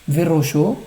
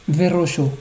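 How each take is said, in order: The two takes are said the same way.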